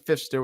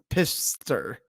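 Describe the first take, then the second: First: The name begins with an F sound. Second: The name begins with a P sound.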